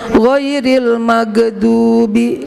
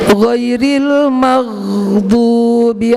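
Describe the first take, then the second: First: The consonant before 'dubi' is a hard bounced stop. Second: The consonant before 'dubi' is a smooth throat friction. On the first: The speaker calls it wrong. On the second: The speaker calls it right.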